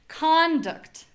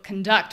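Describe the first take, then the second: First: The stress is on the first syllable. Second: The stress is on the second syllable. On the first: It is the noun. "the first one is the noun" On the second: It is the verb. "which is the verb. So we have our unstressed syllable first"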